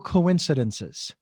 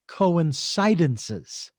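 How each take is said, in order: First: The stress falls on its usual syllable. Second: The stress is moved to another syllable. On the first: Things happen together by chance. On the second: Things coincide for a reason.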